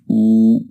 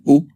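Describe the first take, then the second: First: The vowel is held long and drawn out. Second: The vowel is short and clipped. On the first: The speaker calls it right. "long one" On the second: The speaker calls it wrong. "It's not u like the dhamma"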